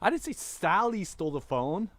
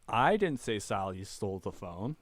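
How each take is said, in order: First: The word 'Sally' carries the main stress. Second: The word 'I' carries the main stress. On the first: A different person stole it. "It was Johnny" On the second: Someone else said it. "It wasn't me"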